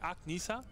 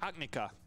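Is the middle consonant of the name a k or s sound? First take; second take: s; k. First: The middle consonant is an s sound. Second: The middle consonant is a k sound. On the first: The speaker calls it wrong. "Ich würde sagen Agnisa" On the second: The speaker calls it right. "wie K ausgesprochen. Ist schon richtig"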